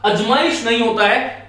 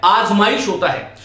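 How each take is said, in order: First: अजमाइश with short a at the start, əd͡ʒmaɪʃ; wrong Punjabi-style vowel. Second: आजमाइश with a long open aa at the start; correct long vowel. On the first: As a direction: say अजमाइश with a short first vowel, as the Punjabi-influenced belt does. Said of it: "आकार को अकार बोल देते हैं". (अजमाइश का पहला स्वर छोटा, अ जैसा) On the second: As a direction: say आजमाइश clearly with a long first aa. (आजमाइश का पहला स्वर लंबा, आ जैसा) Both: Shown as a demonstration.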